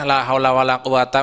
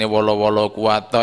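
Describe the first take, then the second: First: The syllable 'wala' is said only once. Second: The syllable 'wala' is said twice in a row. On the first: The speaker calls it right. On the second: The speaker calls it wrong.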